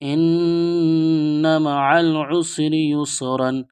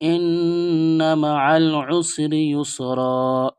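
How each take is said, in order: First: The last word ends with a full -an ending. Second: The last word ends in a long -a, stopped.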